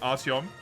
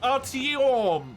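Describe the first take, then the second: First: The name is said plainly at normal volume. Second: The name is louder with a stretched, stressed o. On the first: The speaker calls it wrong. "I don't care if they just say Artyom" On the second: The speaker calls it right. "a little bit too much emphasis on the O's. And also just weirdly say it louder"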